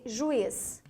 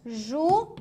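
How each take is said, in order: First: Said in the usual way. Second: "Juiz" broken into ju and iz; long pause inside "Juiz"; syllable by syllable. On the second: Shown as a demonstration. Teacher tests the hiatus, "Juiz" split in two. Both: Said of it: "mas e juiz?".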